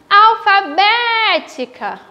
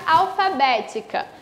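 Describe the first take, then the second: First: "alfabética" with BÉ held long and open; slow, called-out "alfabética", long stressed é; calling the word. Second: Said in the usual way. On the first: Shown as a demonstration. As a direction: stretch the third syllable of "alfabética". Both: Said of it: "eu chamo pela palavra".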